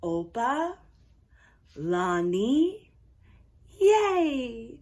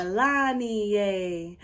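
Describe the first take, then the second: First: Opa, Lani, yay in separate pieces; broken-down pronunciation. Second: Opalanie joined up, slow and low; whole-word pronunciation. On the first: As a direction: sound out Opa, Lani, yay with long pauses between parts. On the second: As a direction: say Opalanie as one smooth, stretched word. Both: Shown as a demonstration. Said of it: "Let's break that down".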